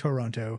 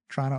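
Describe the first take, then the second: First: Every vowel is said, giving three full syllables. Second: The first vowel is dropped, giving two syllables. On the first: "I actually made a point to say that right" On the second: "most Torontonians will drop the first O and just call it Trana"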